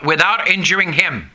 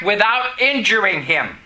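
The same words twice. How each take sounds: First: Said in the usual way. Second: "without injuring him" set apart with emphasis; stressed phrase. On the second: Shown as a demonstration. Preacher stressing the fact to listeners, emphasis on "without injuring him". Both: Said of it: "I stress the fact".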